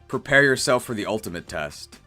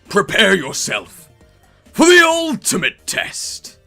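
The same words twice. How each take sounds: First: It is said plainly, as an ordinary question. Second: It is said dramatically, imitating a character's voice. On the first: The speaker calls it wrong. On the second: The speaker calls it right.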